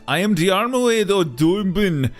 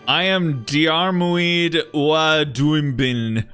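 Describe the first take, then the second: First: It is read in a put-on Irish-style accent. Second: It is read in the speaker's normal accent.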